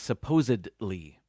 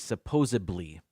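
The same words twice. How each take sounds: First: No B sound appears before the ending. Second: A B sound is added before the ending. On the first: The speaker calls it right. "but it is supposedly" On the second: The speaker calls it wrong. "they add a B to it, and they say supposedly"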